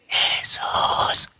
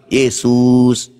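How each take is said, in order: First: The name is whispered softly. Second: The name is shouted loudly.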